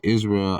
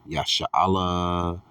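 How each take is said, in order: First: The word begins with an 'is' sound. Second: The word begins with a 'ya' sound. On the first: The speaker calls it wrong. "That's not the proper pronunciation" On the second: The speaker calls it right. "Yasha'Allah is how you would pronounce Israel in Hebrew"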